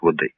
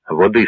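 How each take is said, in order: First: Said in the usual way. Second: Hoarse. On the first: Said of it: "принесла Свинові глечик води". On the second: A narrator's reading. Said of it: "сказав хриплим голосом Свен".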